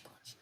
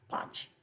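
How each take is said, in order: First: "punch" said as the English word, very soft; "punch" with English sounds, pʌnʧ, barely spoken. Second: "Panch" said the Hindi way with breathy p and open a, soft; "Panch" as pʰanch. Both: Shown as a demonstration. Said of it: "Like a punch".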